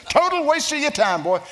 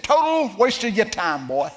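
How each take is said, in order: First: Even higher, loud brush-off; louder dismissal. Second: High, loud brush-off; gruff dismissal. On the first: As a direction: push the brush-off harder. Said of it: "That's what he said". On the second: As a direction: wave him off loudly. Bob dismissing the offer. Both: Retold or imitated.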